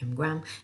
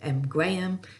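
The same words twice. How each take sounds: First: The name is said in an American accent. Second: The name is said in a British accent. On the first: "In the U S, it's more like" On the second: "So I'm British. I spell I, I pronounce it"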